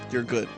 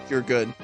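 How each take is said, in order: Both takes have the same delivery.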